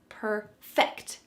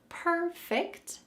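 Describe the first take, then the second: First: The stress is on the second syllable. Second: The stress is on the first syllable. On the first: It is a verb meaning to make something better. "The final part of this phrase is what we're going to emphasize" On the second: It is the ordinary word describing something flawless. "there is a different emphasis in pronunciation"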